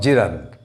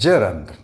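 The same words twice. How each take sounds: First: The second vowel is a full vowel. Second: The second vowel is a weak schwa. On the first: The speaker calls it wrong. "not gerund" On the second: The speaker calls it right. "This word is gerund"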